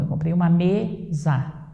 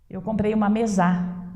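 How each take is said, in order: First: Mesa is stressed on its first syllable. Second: Mesa is stressed on its last syllable. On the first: The speaker calls it right. "Não" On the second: The speaker calls it wrong. "tente deslocar a sílaba tônica"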